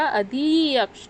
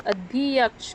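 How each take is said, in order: First: अध्यक्ष said slowly, syllable by syllable, as अ-धि-यक्ष; slow careful pronunciation. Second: Said in the usual way. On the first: Shown as a demonstration. Teacher showing students the prefix in अध्यक्ष, slow careful pronunciation. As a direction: spell out अध्यक्ष slowly so the अधि shows. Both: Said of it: "कैसे उच्चारण आएगा?".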